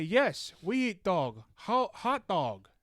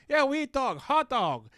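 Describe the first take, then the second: First: Higher, mock Chinese accent of a classmate; quoting the Chinese kid with his accent; imitating Chinese accent. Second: High mock accent, "hot dog" sounding like "whole dog"; mock Chinese accent. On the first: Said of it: "I say". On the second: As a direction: imitate the kid's accent, higher. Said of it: "it sounded like he went like".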